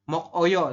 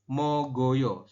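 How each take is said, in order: First: A hard k ends the first syllable, then a break. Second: A soft g links smoothly into the next syllable. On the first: It is read exactly as it is written. The speaker calls it wrong. "Kalau sesuai tulisan kan Anda mungkin membacanya mok oyo" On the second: It follows the reading rule for linked sounds. The speaker calls it right. "di aturan baca nomor dua ini Anda membacanya adalah mogoyo"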